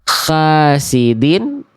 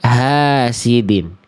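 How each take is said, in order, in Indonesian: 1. Diawali dengan bunyi h serak, seperti kh. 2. Diawali dengan h biasa yang ringan dan berhembus. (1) "ada semi-semi huruf kh-nya di sana" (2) "huruf hanya H, H besar"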